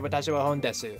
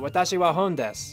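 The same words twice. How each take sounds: First: The final vowel of desu is pronounced. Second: The final vowel of desu is dropped. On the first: "I don't really say" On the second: "you really just hear des. So I would say"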